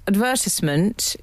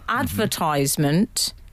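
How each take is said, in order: First: It is said the traditional British way. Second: It is said the American way. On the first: "the traditional RP pronunciation" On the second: "an American corruption"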